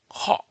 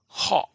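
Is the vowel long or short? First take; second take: short; short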